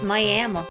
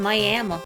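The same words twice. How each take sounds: First: It is said with a southern-sounding pronunciation. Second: The same.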